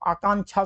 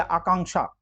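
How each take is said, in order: First: आकांक्षा with "chha" replacing क्ष; आकांक्षा said as aa-kaan-chhaa; wrong colloquial form. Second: आकांक्षा with a "ksha" ending; आकांक्षा said as aa-kaank-shaa; correct ksha sound. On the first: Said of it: "सुना आपने कभी". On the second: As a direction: sound क्ष clearly in आकांक्षा. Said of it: "या आकांक्षा". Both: Shown as a demonstration.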